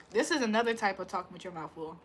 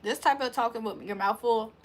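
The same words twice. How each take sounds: First: Sloppy talking with food audible; mouth full, messy. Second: Talking around food so it barely shows; a hint of a mouthful; mouth full, subtle. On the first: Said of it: "you can hear every bit of the food". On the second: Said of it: "you do have food in your mouth, but you kinda don't tell". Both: Shown as a demonstration.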